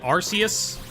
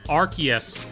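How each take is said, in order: First: The first syllable sounds like 'arse'. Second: The first syllable sounds like 'ark'. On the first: "because it's got arse in it" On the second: "as in R K S"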